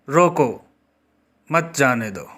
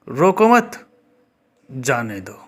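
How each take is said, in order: First: The pause comes right after 'roko'. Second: The pause comes right after 'mat'. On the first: Stop the person and do not let them go. "इसका अर्थ यह है कि किसी को रोकने के लिए कहा जा रहा है" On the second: Do not stop the person; let them go. "विराम चिन्हों का दूसरी तरह से प्रयोग करके"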